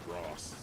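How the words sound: It is said in a Southern British accent.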